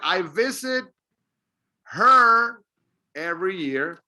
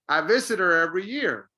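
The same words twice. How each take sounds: First: The h in 'her' is clearly pronounced. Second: The h in 'her' is dropped and linked. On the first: The speaker calls it wrong. "instead of saying" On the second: The speaker calls it right. "when you put it together, you say"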